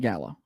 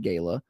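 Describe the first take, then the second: First: It is said like the Gala apple. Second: It is said the way fancy Southerners say it.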